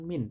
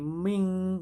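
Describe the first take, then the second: First: The word ends in a clear n sound. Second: The word ends in a nasal ng sound. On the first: The speaker calls it wrong. "bukan min" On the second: The speaker calls it right. "tapi ming ya"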